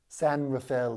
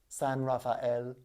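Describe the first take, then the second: First: Rafael is squeezed into two syllables. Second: Rafael is said with all three syllables. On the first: This is how the privileged locals say it. The speaker calls it wrong. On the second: This is the saint's full name. The speaker calls it right. "It's Raphael, people"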